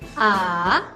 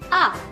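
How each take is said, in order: First: The pitch dips down and then rises. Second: The pitch falls sharply. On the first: "Turun terus naik" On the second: "Itu jatuh. Menghentak"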